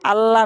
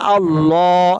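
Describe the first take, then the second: First: The L sound is light and thin. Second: The L sound is heavy and full. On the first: The speaker calls it wrong. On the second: The speaker calls it right.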